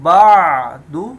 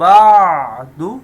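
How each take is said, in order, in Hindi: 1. 'ain' की आवाज़ साफ़ और स्पष्ट रूप से बोली गई है। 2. 'ain' की आवाज़ साफ़ और स्पष्ट रूप से बोली गई है।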